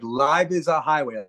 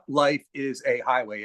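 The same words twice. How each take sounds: First: The words run together as one word. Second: The words are said separately, with breaks.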